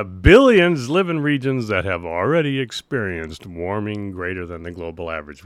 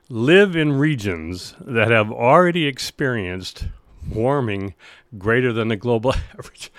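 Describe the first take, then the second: First: Said in the usual way. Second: Reading through suppressed laughter; holding back a laugh mid-sentence; stifled giggles. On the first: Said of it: "I'm gonna requote that because maybe I was a little bit too excited". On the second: Real, not acted. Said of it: "trying not to laugh right now".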